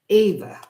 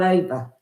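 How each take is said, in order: First: The name begins with an 'ee' vowel sound. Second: The name begins with an 'ah' vowel sound. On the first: This is the name's real pronunciation. The speaker calls it right. "It's Eva" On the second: This is how others say the name. The speaker calls it wrong. "They call her Ava. It's not Ava"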